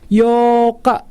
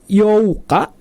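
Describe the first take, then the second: First: The vowel is a single long o sound. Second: The vowels o and u are said separately. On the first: The speaker calls it right. "dibacanya dua harkat panjang" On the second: The speaker calls it wrong. "Itu dibacanya bukan Youka"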